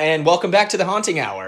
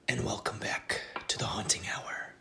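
First: It is said in a normal speaking voice. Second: It is said in a put-on creepy voice.

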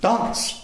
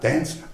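First: It has a long English vowel. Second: It has a flat Australian vowel.

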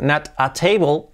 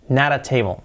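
First: The t is a clear, separate t sound. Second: The t is a soft r-like tap, linked. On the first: The speaker calls it wrong. "en lugar de decir not a table" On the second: The speaker calls it right. "hacerla como una R suave cuando va muchas veces entre vocales"

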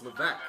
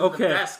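First: The S sound is silent in the name. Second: The S sound is pronounced in the name. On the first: The speaker calls it right. "You don't pronounce the S" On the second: The speaker calls it wrong. "They said Levesque"

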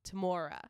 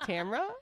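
First: The name is said with three syllables. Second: The name is said with two syllables. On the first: "pronounce it as Tamora" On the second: "I was wrong in calling her Tamra"

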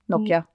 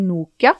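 First: It is said the English way. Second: It is said the Norwegian way. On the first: "på engelsk så sier de Nokia" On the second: "det sier alle i Norge"

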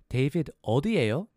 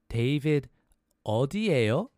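First: The phrase is said at a faster pace. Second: The phrase is said at a slower pace.

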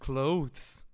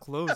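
First: The word is said with a clear th sound. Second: The word is said without a th sound. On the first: The speaker calls it wrong. "it has a TH. It's clothes" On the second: The speaker calls it right. "no, it's not. It's clothes"

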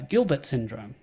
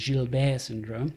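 First: Gilbert is said with an Australian pronunciation. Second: Gilbert is said with a French pronunciation.

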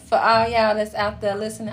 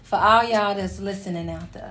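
First: It is said in a normal voice. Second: It is said in a put-on sexy voice.

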